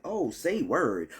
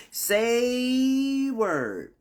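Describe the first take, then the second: First: Said in the usual way. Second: High, long-drawn SAY, dropping on word; hammed-up reaction. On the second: Waking up with aches, hammed-up high drawn-out reaction. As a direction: stretch SAY out high and let it fall. Exaggerated repeat of reaction to pain.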